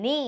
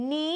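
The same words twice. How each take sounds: First: "ni" said on a high tone. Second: "ni" said with a falling tone. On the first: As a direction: keep "ni" high and level. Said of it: "and high tone". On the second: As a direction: let "ni" drop in pitch. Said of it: "so falling tone". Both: Shown as a demonstration.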